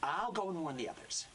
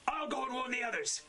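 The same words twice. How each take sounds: First: Raised-pitch character read, held back; a restrained touch of urgency; acted warning line. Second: Much higher-pitched character read; urgent acted line. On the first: Actor as character leaves to warn the others, mildly urgent. First take of game line. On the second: Actor as character rushes to warn the others, high and urgent.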